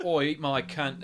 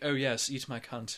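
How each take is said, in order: First: Slow, base Cockney woman; Cockney accent. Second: Slow, refined British woman; posh British accent. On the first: Co-host contrasting dialects for laughs, Cockney accent. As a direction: put on a rough Cockney accent. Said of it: "your Cockney and your". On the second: Co-host contrasting dialects for laughs, posh British accent. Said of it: "your posh". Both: Shown as a demonstration.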